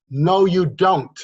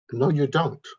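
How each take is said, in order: First: Slow, higher and louder no, you don't; emphatic rebuttal. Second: Said in the usual way. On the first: Real, not acted. Speaker rejecting the realist to the viewers, firm slow denial. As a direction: draw out no, you don't firmly.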